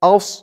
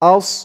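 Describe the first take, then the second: No difference in how they are said.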